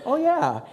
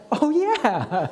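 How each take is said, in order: First: A high, loud sheepish "oh, yeah"; the kid catching his own mistake out loud; sheepish realization. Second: A high, loud "oh, yeah" as it dawns on him; sudden realization. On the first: Son realizing his dad wasn't there, sheepish high oh yeah. Kid caught misremembering the trip. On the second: Husband conceding to his wife, high dawning oh yeah. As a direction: admit she's right in a flash. Wife's reminder about Banff lands. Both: Retold or imitated.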